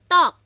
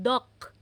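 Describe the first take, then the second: First: The first consonant is strong and tense. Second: The first consonant is soft and lax. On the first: The speaker calls it right. "double T naman" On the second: The speaker calls it wrong. "hindi yan dok"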